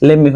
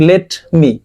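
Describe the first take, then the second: First: "let me" blended into "lemmi"; run together. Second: "let me" as two words, t sounded; separate words. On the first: Teacher contrasting sentence speech, "let me" merged into lemmi. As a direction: drop the t and join "let me" as lem-mi. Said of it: "যদি একসাথে একটা বাক্যের ভিতরে শুনেন". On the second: Teacher showing word-by-word reading, "let me" kept apart. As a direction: sound the t in "let me", then a tiny break. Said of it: "আলাদা আলাদা word". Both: Shown as a demonstration.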